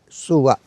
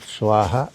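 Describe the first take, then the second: First: The word ends without any 'ha' syllable. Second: The word ends with a clear 'ha' syllable. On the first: The speaker calls it right. "It is Swa. Suva" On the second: The speaker calls it wrong. "It is not Swaha"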